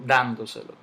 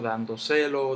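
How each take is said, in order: First: The stress falls on the first syllable. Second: The stress falls on a later syllable. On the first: The speaker calls it right. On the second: The speaker calls it wrong.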